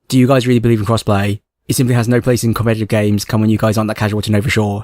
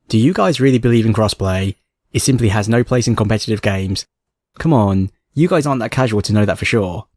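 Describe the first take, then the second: First: It is read as fast as possible. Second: It is read at a normal pace.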